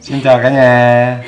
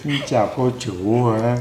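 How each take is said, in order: First: Slow, loud showy hello; loud greeting. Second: Imitating child. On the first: Acted. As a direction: call out to the viewers, drawn out. Greets the viewers as a show. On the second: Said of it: "Nó nói chuyện nghe mắc cười quá".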